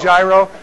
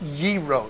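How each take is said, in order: First: The word begins with a G sound. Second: The word begins without a G sound. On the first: The speaker calls it wrong. "People say gyro. It's not" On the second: The speaker calls it right. "They don't have a G sound in the Greek"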